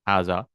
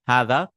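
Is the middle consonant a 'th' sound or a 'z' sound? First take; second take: z; th. First: The middle consonant sounds like a z. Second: The middle consonant is a voiced th sound. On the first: The speaker calls it wrong. "they pronounce it za like haza. That's a mistake" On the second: The speaker calls it right. "we need to bring our tongue out"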